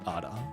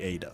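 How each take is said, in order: First: The name is said with a non-English pronunciation. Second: The name is said with an English pronunciation. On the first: "not Ada" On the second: "Anglo pronunciation would be Ada"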